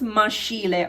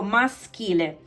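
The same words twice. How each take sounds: First: The middle consonant sounds like sh. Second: The middle consonant sounds like sk. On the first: The speaker calls it wrong. "Don't pronounce maschile" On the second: The speaker calls it right. "Because S C H is sk"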